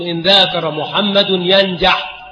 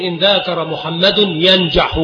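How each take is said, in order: First: ينجح said yanjaḥ, with no final vowel; slow example with sukun ending ينجح; jussive ending. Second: ينجح said yanjaḥu, final u sounded; slow example with -u ending on ينجح; nominative ending. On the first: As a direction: stop ينجح on the bare ḥ. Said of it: "فيجوز الجزم ويجوز". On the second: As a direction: end ينجح on a clear damma. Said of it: "الرفع". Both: Shown as a demonstration.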